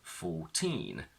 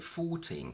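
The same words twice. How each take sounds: First: The stress is on the second syllable. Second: The stress is on the first syllable. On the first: The number stands on its own. "when they're on their own, the stress is on teen" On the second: The number is followed by a noun. "the stress shifts to the front and we say fourteen cats"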